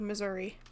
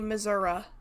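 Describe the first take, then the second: First: It uses the common present-day pronunciation of the name. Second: It uses an old-fashioned pronunciation of the name. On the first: It is how most people say it. "instead of" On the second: It is how very old people say it. "they also say"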